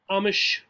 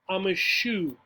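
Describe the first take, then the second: First: The words are run together quickly. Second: The words are said slowly and separately.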